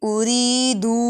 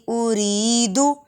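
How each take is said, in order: Both takes have the same delivery.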